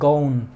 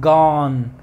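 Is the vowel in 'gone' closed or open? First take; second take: closed; open. First: The vowel is closed and rounded. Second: The vowel is open, not closed. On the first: The speaker calls it wrong. "no es gone" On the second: The speaker calls it right. "la O es abierta, no cierra"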